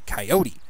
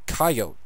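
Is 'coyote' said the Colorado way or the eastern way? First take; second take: eastern; Colorado. First: It is said in an eastern way. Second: It is said in a Colorado-Wyoming way. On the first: "If you come from the east, you're more likely to say coyote" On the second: "It's a Colorado Wyoming kind of pronunciation"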